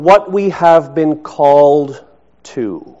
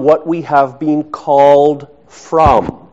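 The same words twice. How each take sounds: First: Very slow, raised build to a stressed "to". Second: Slow, deliberate build to a stressed "from". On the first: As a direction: hold back, then land on "to" by itself. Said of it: "the emphasis of the word koinonia". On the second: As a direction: set "from" apart and land on it firmly. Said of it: "the emphasis is on". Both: Shown as a demonstration.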